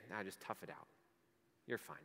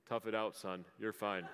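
First: Low, much softer brush-off; dismissive God. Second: A lower, gruff-ish dad brushing it off. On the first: Pretend. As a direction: shrug it off coldly and quietly. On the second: Retold or imitated. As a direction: play the tough dad, lightly, with a laugh at the end. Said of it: "in my best dad voice".

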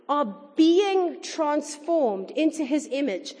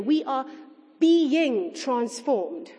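First: Said in the usual way. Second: Being drawn out very slowly and leaned on hard; stress on being. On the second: Shown as a demonstration. Preacher pressing the congregation on being, very slow and stressed. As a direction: stretch the word being, slow and weighty. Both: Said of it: "I want to emphasize that word there".

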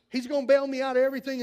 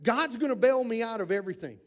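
First: Louder, faster and higher repeat; eager believer, sped up. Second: Said in the usual way. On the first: Retold or imitated. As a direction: rush it out, sure God will rescue. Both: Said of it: "they expect".

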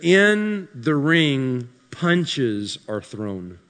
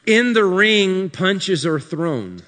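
First: Slow, dropping mock-deep delivery; mock profound. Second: Slow, weighty ring line; mock profound restated. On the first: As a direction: fake profundity, drag it out. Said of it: "That's deep". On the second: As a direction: repeat it with mock gravity. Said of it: "I'm being really sarcastic". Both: Shown as a demonstration.

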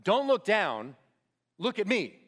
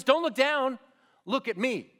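First: Steady, firm call to a scared climber; experienced climber steadying a panicking partner, firm; calm climber's urging. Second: Higher, louder urgent call; movie-style urgent shout. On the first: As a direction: hold his eyes and talk him through it. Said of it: "he's gonna say to that guy". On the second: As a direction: yell it like the big movie rescue moment. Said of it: "what they do in the movies". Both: Retold or imitated.

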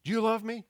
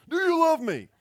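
First: Coach fire-up. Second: High, loud halftime pep-talk shout; louder, pumped-up coach shout; hyped coach yell. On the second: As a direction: fire up the team like a coach at halftime. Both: Retold or imitated. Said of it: "a coach might do at halftime".

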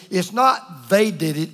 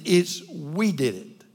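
First: "they" stressed, setting up the contrast. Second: "we" hit hard, slowed down; stress on we, slower. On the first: Preacher to congregation, stressing "they". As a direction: lean on "they" as the wrong answer. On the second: Preacher to congregation, slowly stressing "we". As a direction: land "we" as the real answer. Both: Shown as a demonstration. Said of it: "When the truth of the matter is".

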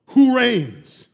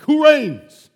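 First: Firm, loud question from God; God demanding an answer; commanding question. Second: Higher, louder repeat of "who reigns"; God pressing the question home; rising insistence. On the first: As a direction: declare it with authority. God asks, then repeats louder. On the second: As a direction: push harder the second time, hitting "who". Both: Acted.

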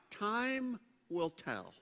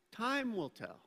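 First: "Time will tell" spoken slowly, leaning on "Time"; slow emphatic line. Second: Said in the usual way. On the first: Shown as a demonstration. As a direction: land "Time" with a slow falling stress. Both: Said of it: "write out on your handout".

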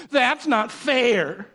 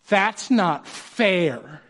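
First: Very slow, higher sulky whine; whiny kid. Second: Put-on drawn-out, slow childish whine; whiny kid. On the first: Retold or imitated. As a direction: drag it out like a kid who lost the cookie. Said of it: "That's how they say it too". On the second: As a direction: stretch it out like a sulking kid. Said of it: "What do they say?".

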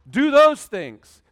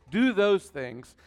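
First: "those" hit hard and slow; loud command. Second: Said in the usual way. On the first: Shown as a demonstration. Urging the congregation, loud and slow. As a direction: drive the word those home.

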